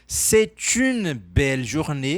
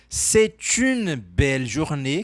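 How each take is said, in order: First: The t of c'est links into une. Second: The same.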